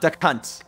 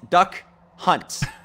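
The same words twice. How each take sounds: First: The two words are slurred into one rude word. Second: The two words are said clearly apart. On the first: The speaker calls it wrong. "not Duck Hunt" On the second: The speaker calls it right. "It's Duck Hunt"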